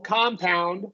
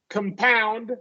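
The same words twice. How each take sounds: First: The stress is on the first syllable. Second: The stress is on the second syllable. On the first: It is used as a noun. "we're going to stress the first syllable and give it a short O" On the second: It is used as a verb. "we're going to stress that second syllable and give this a schwa"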